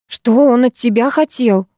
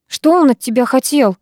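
First: Slow repeat, weight on ЧТО; insistent repeat. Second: Higher, mildly exclaimed question; mild cry out. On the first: Girl repeating her question to startled boy, slowly insistent. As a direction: press ЧТО higher and draw the question out. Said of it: "повторила я". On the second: Girl calling to boy on porch, crying out. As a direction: call it out, anxious for an answer. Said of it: "выкрикнула я". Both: A narrator's reading.

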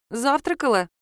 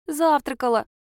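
First: Said in the usual way. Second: Put-on child answering. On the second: A narrator's reading.

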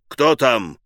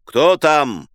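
First: Thundering. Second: Loud wary call down the stairs; shouted who's there. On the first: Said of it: "загремел Машлаевский". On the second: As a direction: bark it at the door. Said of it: "внизу крикнул". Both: Acted.

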